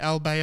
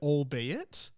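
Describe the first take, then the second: First: The final T sound is left silent. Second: The final T sound is pronounced.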